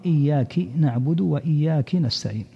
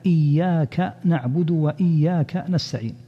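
First: إياك misread as "iyyaki", with an i after the kaf; kasra on the kaf. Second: Said in the usual way. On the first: Shown as a demonstration. Teacher showing listeners a common Fatiha mistake, إياك wrongly said "iyyaki". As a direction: say إياك ending in -ki instead of -ka, both times. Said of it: "كسر الكاف". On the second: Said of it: "فمن ذلك كسر الكاف في قوله تعالى".

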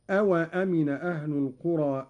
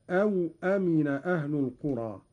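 First: Said in the usual way. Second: أو with unvowelled waw, "aw amina"; silent waw vowel. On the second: Shown as a demonstration. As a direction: say أو as one closed syllable "aw" before أمن. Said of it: "قرأ قالون بإسكان الواو هكذا".

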